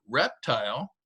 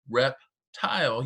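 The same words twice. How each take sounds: First: Said in the usual way. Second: Reptile stretched slowly, rep and tile drawn out; slow syllable demo. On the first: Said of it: "if you say, say, for example, the word". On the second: Shown as a demonstration. Teacher slowly models reptile for students feeling syllables. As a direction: say reptile slowly so the chin drops twice. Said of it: "your chin touches your hand twice".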